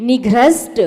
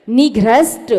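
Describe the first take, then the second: Both takes have the same delivery.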